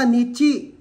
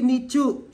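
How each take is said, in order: First: The second syllable has an i vowel. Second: The second syllable has a u vowel. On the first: The speaker calls it right. "C H I Chi, di ba? Nichi" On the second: The speaker calls it wrong. "Hindi Nichu"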